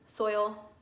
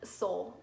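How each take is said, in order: First: The vowel is a clear 'oy' glide. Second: The vowel sounds like 'oh', as in soul. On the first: "I'm not gonna enunciate that every time" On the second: "If you hear me say soul, it's soil"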